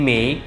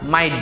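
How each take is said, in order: First: Mate is said with an 'ay' vowel. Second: Mate sounds almost like 'mite'. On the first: "আমরা যেটাকে বলি মেইট" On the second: "সেটাকে তারা মাইট বলে"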